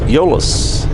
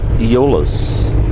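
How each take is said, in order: First: The name is said as Euless. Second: The name is said as Eolus. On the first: The speaker calls it right. "So it's Euless" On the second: The speaker calls it wrong. "not Eolus"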